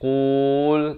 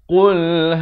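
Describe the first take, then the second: First: The word is said slowly and drawn out. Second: The word is said crisply without lingering. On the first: The speaker calls it wrong. "jangan lambat jadi qul, itu tak mau" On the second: The speaker calls it right. "Dia mesti sempurna saja qul itu terus masuk hal"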